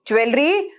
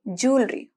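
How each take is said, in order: First: The word begins with a 'jwe' sound. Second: The word begins with a 'joo' sound. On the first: The speaker calls it wrong. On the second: The speaker calls it right.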